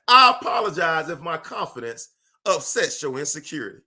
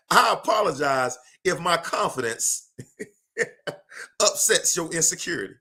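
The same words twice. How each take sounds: First: Said in the usual way. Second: Laughing through a cocky apology. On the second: Shown as a demonstration. Laughing as he teases critics of his confidence. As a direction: chuckle the apology out, amused at the critics.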